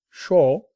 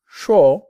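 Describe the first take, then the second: First: Said in the usual way. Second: Put-on louder, the sure said with a Chinese accent; imitating a Chinese-accented sure. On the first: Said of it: "It kinda sounds like sure to me". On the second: Learner copies the teacher's Chinese-accented sure. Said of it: "like, in an accent".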